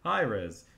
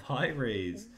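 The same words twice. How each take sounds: First: "Rez" with a short E, as in red; short-E pronunciation. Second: "Raze" with a long A, like rays; long-A pronunciation. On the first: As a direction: say "Hi, Rez" rhyming with fez. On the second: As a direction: say "Hi, Raze" rhyming with days. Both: Shown as a demonstration. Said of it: "That's my accent".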